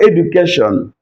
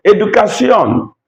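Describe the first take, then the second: First: Said in the usual way. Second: Educación ending in see-ON, pitched high; Spanish pronunciation. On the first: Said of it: "Now, what about education?". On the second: Shown as a demonstration. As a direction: say Educación as e-du-ka-SYON. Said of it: "with an accent".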